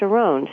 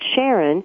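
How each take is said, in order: First: The stress is on the second syllable. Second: The stress is on the first syllable. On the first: The speaker calls it right. "it's actually pronounced Sharon" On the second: The speaker calls it wrong. "someone might pronounce it Sharon"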